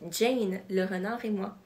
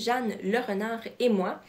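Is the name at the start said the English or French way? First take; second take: English; French. First: The first name is pronounced like English Jane. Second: The first name is pronounced like French Jeanne. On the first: The speaker calls it right. "il faudrait le prononcer Jane le renard et moi" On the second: The speaker calls it wrong. "qu'on aurait tendance à prononcer comme je viens de le faire"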